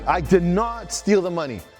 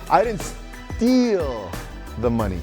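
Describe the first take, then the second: First: The stress is on "not". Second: The stress is on "steal".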